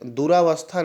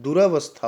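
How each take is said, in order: First: दुरावस्था as du-raa-vas-tha; long-vowel mistake. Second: दुरावस्था as du-ra-vas-tha; correct short vowel. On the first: Teacher showing an exam error, दुरावस्था as du-raa-vas-tha. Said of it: "दुरावस्था नहीं होता है". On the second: Teacher correcting students, दुरावस्था as du-ra-vas-tha. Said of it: "दुरावस्था होता है". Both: Shown as a demonstration.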